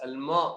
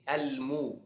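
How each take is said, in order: First: The vowel after m is an open a. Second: The vowel after m is a rounded u. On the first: The speaker calls it wrong. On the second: The speaker calls it right. "Harus kita baca dhammah sampai selesai huruf"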